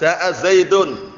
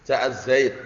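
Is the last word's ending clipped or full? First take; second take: full; clipped. First: The last word ends with a full -un ending. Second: The last word stops on the consonant d. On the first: The speaker calls it wrong. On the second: The speaker calls it right.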